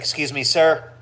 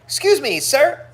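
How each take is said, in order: First: It is said in a plain, stern tone. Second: It is said in a cheerful, upbeat tone. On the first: "Normally it's like" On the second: "The reason I say it like that is because it it disarms people"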